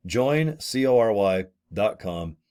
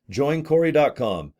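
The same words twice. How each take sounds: First: C O R Y spelled slowly, one letter at a time. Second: Said in the usual way. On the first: Shown as a demonstration. Spelling the site name for viewers, slow and clear.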